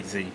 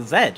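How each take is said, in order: First: "Z" pronounced zee; American-style "Z", rhyming with see. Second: "Z" pronounced zed; English-style "Z", rhyming with bed; British zed. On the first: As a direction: say "Z" as zee, no final d. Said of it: "But I do say Z". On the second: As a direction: say "Z" as zed, with a final d. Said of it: "in England it's meant to be". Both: Shown as a demonstration.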